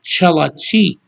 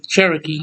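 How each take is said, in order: First: The middle consonant is an L sound. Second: The middle consonant is an R sound. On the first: The speaker calls it right. "It's called Chelachi" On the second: The speaker calls it wrong. "that's not how you say Cherokee either"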